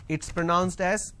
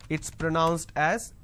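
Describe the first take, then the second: Both takes have the same delivery.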